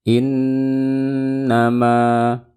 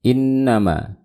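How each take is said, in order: First: The nasal sound is held noticeably longer. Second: The nasal sound is held only briefly. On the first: The speaker calls it right. "Tambah lagi, panjangin lagi" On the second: The speaker calls it wrong. "jangan dibaca kayak gini"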